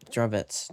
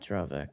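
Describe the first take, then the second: First: The name ends with a ts sound. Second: The name ends with a k sound. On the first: The speaker calls it right. "Dravets is how it's actually called" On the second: The speaker calls it wrong. "Keep calling it Dravek"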